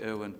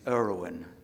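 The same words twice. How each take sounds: First: The name is said without an r sound. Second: The name is said with a clear r sound. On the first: "people think I'm saying Owen because of my ridiculous accent" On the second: "the way you say it"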